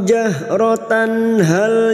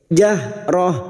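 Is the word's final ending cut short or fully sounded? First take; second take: fully sounded; cut short. First: The word ends in a full -tan, linked onward. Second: The word ends short with no -tan ending. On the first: The reciter continues into the next word. "Sekarang di sini kita wasal atau terus" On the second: The reciter stops after this word. "karena kita wakaf di sini maka tak marbutoh yang berharokat fathah tanwin dibaca pendek"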